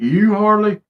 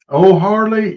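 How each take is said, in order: First: The name begins with a 'ewe' sound. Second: The name does not begin with a 'ewe' sound.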